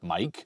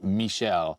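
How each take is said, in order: First: The name is said with a hard K sound. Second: The name is said with a soft SH sound. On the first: "The proper Italian pronunciation of Mike's first name probably is a hard K sound" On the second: "in French, uh, Michelle is pronounced Michel"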